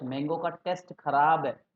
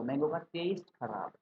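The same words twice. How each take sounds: First: टेस्ट wrongly said with short e, like "test". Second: टेस्ट with a long ei glide, like "taste". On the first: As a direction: say टेस्ट like exam "test" though flavour is meant. (टेस्ट में छोटा "ए", परीक्षा वाले test जैसा) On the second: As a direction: say टेस्ट as "teist", the flavour word. (टेस्ट को "टेइस्ट" बोलें, स्वाद वाले taste जैसा) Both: Shown as a demonstration. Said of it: "तो ये गलत बोल दिया".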